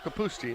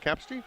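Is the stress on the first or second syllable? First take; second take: second; first. First: The stress is on the second syllable. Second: The stress is on the first syllable. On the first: The speaker calls it right. "it is the emphasis on the second syllable" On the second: The speaker calls it wrong.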